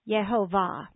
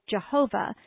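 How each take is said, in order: First: The stress is on the third syllable. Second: The stress is on the second syllable. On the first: "pronounce the name of the Lord in the Hebrew way" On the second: "accented the second instead of the third syllable"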